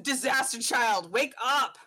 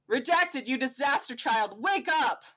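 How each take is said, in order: First: Blunt, unshouted wake-up; not screamed. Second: Comic caption yell. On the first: Dad bursting in on his son, blunt not screaming. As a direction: say it flat and pointed, no yell. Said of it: "not screamed, but just". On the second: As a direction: shout it like a rude alarm. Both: Acted.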